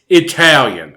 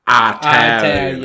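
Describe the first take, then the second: First: It is said with a standard pronunciation. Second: It is said with a Southern-style pronunciation. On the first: The speaker calls it right. "Granny, it's" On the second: The speaker calls it wrong. "My grandmother would pronounce it"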